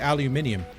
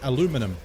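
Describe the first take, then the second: First: It is said the British way. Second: It is said the North American way. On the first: "But we say aluminium" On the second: "you lot would say aluminum"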